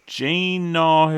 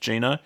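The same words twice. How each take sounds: First: GINO drawn out and raised in pitch; tentative pronunciation. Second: Said in the usual way. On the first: Shown as a demonstration. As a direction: sound out "Gino" slowly and higher, as a careful attempt. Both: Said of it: "I don't think it's actually pronounced Gino".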